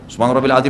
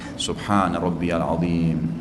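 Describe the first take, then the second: First: It is said fast and mumbled together. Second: It is said slowly and clearly, unhurried. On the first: The prayer is rushed without attention. The speaker calls it wrong. "kayak orang kumur-kumur, subhanallah, buru-buru" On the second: The prayer is savored with attention. The speaker calls it right.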